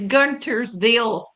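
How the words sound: The t in the middle is pronounced, northern style.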